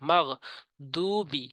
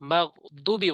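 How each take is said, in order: First: The vowel in 'du' is drawn out long. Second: The vowel in 'du' is cut short. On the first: The speaker calls it right. "দু টানতে হবে" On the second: The speaker calls it wrong. "বলা যাবে না"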